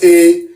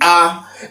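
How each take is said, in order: First: The letter is said the English way. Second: The letter is said the Yoruba way. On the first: The speaker calls it wrong. "It's not pronounced A. Okay, like you do on the English side of things" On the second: The speaker calls it right. "It's actually A"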